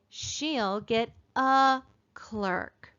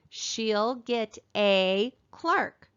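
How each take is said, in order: First: The word 'a' is said as a weak 'uh'. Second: The word 'a' is said with a long 'ay'. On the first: The speaker calls it right. "More often we'll say" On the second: The speaker calls it wrong. "we don't use the word a"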